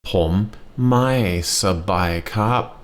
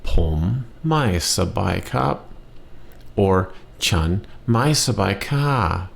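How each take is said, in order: First: Pom mai sabai kap stretched out very slowly, syllable by syllable; slow the phrase right down for learners; very slow model. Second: Pom mai sabai kap, slowly whispered, each syllable apart; slow careful model. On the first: Teacher repeating the phrase very slowly for learners. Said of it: "again, please". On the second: Teacher modelling the phrase slowly, almost whispered. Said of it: "words you know". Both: Shown as a demonstration.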